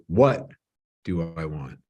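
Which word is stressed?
what. The stress falls on the word what.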